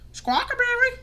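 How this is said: It is said in a squawking parrot-like voice.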